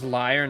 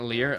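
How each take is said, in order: First: The vowel sounds like 'eye'. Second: The vowel sounds like 'ear'. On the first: The speaker calls it right. "It's pronounced liar" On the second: The speaker calls it wrong. "not lear"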